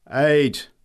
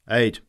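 First: Loud, high final thunderclap of a word; thundered. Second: Mild bellow. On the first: Greybeard thundering his last word loudly. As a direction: roar it with fresh force. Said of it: "thundered the greybeard". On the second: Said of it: "bellowed the sage". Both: A narrator's reading.

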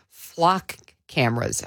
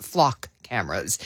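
First: Flock cameras in a thick Chicago accent; flat Chicago vowels on flock cameras. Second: Said in the usual way. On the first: Real, not acted. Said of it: "I know I'm using my Chicago accent to say flock cameras". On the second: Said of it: "I know I'm using my Chicago accent to say flock cameras, but".

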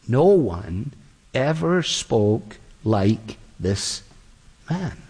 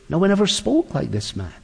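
First: Very slow, low and hushed in wonder; awed, slow officers. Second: Said in the usual way. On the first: Acted. Officers answering the Pharisees, slow and awed. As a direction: draw each word out in awe.

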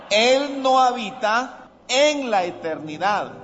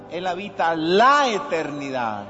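First: "en" punched high and drawn out; stress on EN. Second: "la" stretched and punched; stress on LA. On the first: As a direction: hit "en" hard after a short pause. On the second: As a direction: lean long and hard on "la". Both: Shown as a demonstration. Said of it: "Hay una diferencia".

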